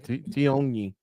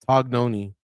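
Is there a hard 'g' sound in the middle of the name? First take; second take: no; yes. First: The name has no hard g sound. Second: The name has a hard g sound. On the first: The speaker calls it wrong. "I went with Tion Tion G N I Tioni. I overthought it" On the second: The speaker calls it right. "it's T O G Tog and then Noni N O N I"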